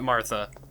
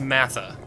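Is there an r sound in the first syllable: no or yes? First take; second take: yes; no. First: The first syllable has an r sound. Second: The first syllable has no r sound. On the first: The speaker calls it wrong. "It's not Martha" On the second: The speaker calls it right. "It's Matha"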